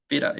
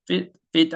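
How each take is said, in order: First: "feet" flapped into a low, tiny "uh"; reduced "of". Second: "feed" followed by a full, high, loud "ah"; over-strong "of". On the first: Teacher giving the correct sound, "feet" with a faint "uh" ending. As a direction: soften the t in "feet" and barely add a schwa. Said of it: "소리는 feet로 발음을 해주시면". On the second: Teacher showing the mistake, "feed" with a heavy "ah" ending. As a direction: put wrong weight on the "ah" after "feed". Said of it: "of를 높음으로 처리를 한 겁니다". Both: Shown as a demonstration.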